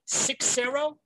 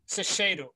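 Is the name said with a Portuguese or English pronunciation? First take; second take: English; Portuguese. First: The name has an English pronunciation. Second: The name has a Portuguese pronunciation. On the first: "and they say it in English" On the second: "how do you say your last name in Portuguese?"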